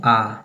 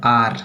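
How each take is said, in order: First: आ as a long open "ah", no R; British silent R. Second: Said in the usual way. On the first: Shown as a demonstration. Teacher shows the British letter name, silent R. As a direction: drop the R, just a long आ. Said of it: "British language में इसको कैसे बोला जाता है". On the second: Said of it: "हम लोग पढ़ते हैं".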